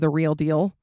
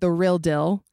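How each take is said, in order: First: The vowels are long, like 'reel deel'. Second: The vowels are short, like 'rill dill'. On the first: The speaker calls it right. "instead of" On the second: The speaker calls it wrong. "The Utah accent is definitely things like the word feel is fill"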